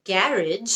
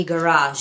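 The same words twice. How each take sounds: First: "গ্যারেজ" as GARR-idge, softly; British pronunciation. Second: "গ্যারাজ" as guh-RAAZH; long AA ending in "গ্যারাজ"; American pronunciation. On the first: Teacher asks learners which is right, "গ্যারেজ" as British GARR-idge. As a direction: stress the start of "গ্যারেজ", j ending. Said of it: "British". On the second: Teacher gives learners the alternative, "গ্যারাজ" as American guh-RAAZH. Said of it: "American". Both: Shown as a demonstration.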